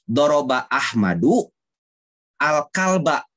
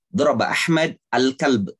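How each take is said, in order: First: The final vowels of the words are pronounced. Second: The final vowels of the words are dropped. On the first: "lihat ujung-ujungnya Ahmadu al-kalba" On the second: "lebih banyak mematikan huruf akhir"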